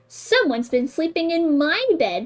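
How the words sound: It is said in a middle-sized voice. A middle-sized mother bear is speaking. "said Mama Bear in her middle-sized voice"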